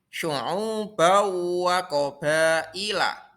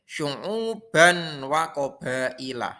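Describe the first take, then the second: First: The n sound merges into the following w. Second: The n sound is pronounced clearly before wa. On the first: The speaker calls it right. "Yang betul yaitu syu'ubau wa qabailah" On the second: The speaker calls it wrong. "Tidak boleh syu'uban wa qabailah. Salah"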